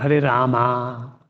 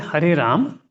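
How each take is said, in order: First: The name ends on an added a vowel. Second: The name ends on the consonant m. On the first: "Or Hare Rama" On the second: "it is this Ram"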